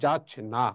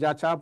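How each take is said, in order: First: It is said with an n sound after ch. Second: It is said without an n sound after ch. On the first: The speaker calls it right. "আমরা পড়ি" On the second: The speaker calls it wrong. "আমরা কি যা চা পড়ি? না"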